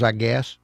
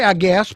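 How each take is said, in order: First: Said in the usual way. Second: "I guess" lifted a bit and pressed louder; a pointed, quoted "I guess"; stress on I guess. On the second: Shown as a demonstration. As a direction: lean on "I guess" as if quoting yourself. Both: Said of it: "I say".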